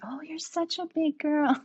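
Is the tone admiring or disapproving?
admiring. It sounds warm and admiring.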